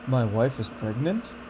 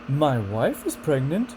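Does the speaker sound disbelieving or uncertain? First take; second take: uncertain; disbelieving. First: Uncertain, with only small pitch jumps. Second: Disbelieving, with big jumps high in pitch. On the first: The speaker is not sure it is true. "we have uncertainty and disbelief" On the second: The speaker can hardly believe it is true. "And then disbelief. ... That's all the way up here"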